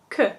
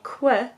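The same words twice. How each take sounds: First: It is said with a French plain 'k' sound. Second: It is said with an English 'kw' sound. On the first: "but in French, we say que" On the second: "we would say que"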